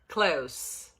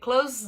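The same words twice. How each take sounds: First: The word ends with a hissing s sound. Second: The word ends with a buzzing z sound. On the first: It means near. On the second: It means to shut.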